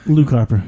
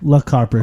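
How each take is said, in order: First: The first name sounds like 'Luke'. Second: The first name sounds like 'Luck'. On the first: The speaker calls it right. "I was correcting your pronunciation of his name" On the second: The speaker calls it wrong. "like Luck. ... Luck Harper is what you said"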